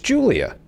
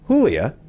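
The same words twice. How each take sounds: First: The name begins with an English 'j' sound. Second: The name begins with a Spanish 'h' sound. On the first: The speaker calls it right. "we have no problem pronouncing that with the J" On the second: The speaker calls it wrong. "It's not"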